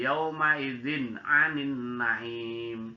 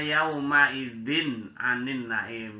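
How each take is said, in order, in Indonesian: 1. Bunyi n sebelum 'anin' kabur, tidak jelas. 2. Bunyi n sebelum 'anin' diucapkan dengan jelas. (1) "nggak boleh" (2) "Jadi kalau idhar itu dibaca jelas"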